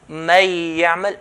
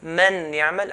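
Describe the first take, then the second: First: The n merges into y without nasality. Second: The n sound is pronounced clearly and separately. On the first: "I'm not doing the غنة. So this is the wrong way" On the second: "I'm making إظهار"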